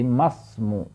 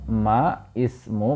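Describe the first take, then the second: First: The words link directly with no added vowel. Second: A separate i vowel is said before smu. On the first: "maka menjadi masmu" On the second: "ma ismu maka menjadi masmu"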